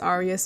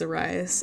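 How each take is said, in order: First: The name is said with its original pronunciation. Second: The name is said with an anglicized pronunciation. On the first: The speaker calls it right. "Technically the name is pronounced Arias" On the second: The speaker calls it wrong.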